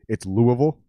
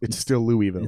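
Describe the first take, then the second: First: It is pronounced the way local residents say it. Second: It is pronounced the way outsiders say it. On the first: This is how people from the city say it. "If you're in Louisville, it's Louisville" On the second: This is how people from elsewhere say it. "But everywhere else, it's still Louisville"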